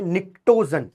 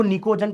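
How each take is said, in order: First: निक्टोजन said as "nik-to-zan", with the "t" sounded; निक्टोजन with a clear "kt" in the middle; correct pronunciation. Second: निकोजन said as "ni-ko-jan", with no "t" sound; निकोजन with a lone "k" in the middle; common misreading. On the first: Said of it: "नहीं, इसका नाम है". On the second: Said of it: "कई लोग इसको निकोजन पढ़ते हैं". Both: Shown as a demonstration.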